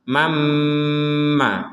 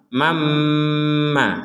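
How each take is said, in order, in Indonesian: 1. Huruf n melebur menjadi m ganda yang sengau. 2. Huruf n melebur menjadi m ganda yang sengau.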